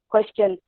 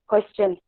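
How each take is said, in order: The two takes are said the same way.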